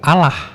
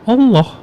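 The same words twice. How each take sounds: First: The L sound is short, a single L. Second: The L sound is held long, doubled. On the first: The speaker calls it wrong. "Kalau Allah, itu L-nya satu" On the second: The speaker calls it right. "gimana cara penyebutan Allah dalam bahasa Arab?"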